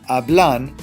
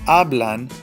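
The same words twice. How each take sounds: Both takes have the same delivery.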